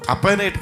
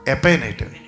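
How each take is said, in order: First: The name begins with an 'a' vowel sound. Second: The name begins with an 'e' vowel sound. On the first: The speaker calls it wrong. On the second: The speaker calls it right.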